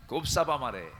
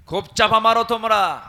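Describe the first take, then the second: First: Said in the usual way. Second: Louder scolding repeat; louder mocking jab. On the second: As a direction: raise the voice on the taunt. Mocking opponents' boasting.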